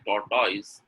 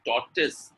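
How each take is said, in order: First: TORTOISE ending in "toys", rising; wrong pronunciation. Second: TORTOISE ending in a short "tis"; correct pronunciation. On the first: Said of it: "is a wrong pronunciation". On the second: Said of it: "is correct". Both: Shown as a demonstration.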